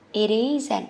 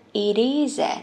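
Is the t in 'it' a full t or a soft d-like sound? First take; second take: soft d; soft d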